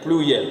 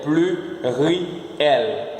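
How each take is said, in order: First: Said in the usual way. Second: "Pluriel" slowly split as plu-ri-el; syllable-by-syllable demonstration. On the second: Shown as a demonstration. Teacher has learners repeat the French, slowly syllable by syllable. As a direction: draw out each syllable of "Pluriel". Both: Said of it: "Você repete comigo".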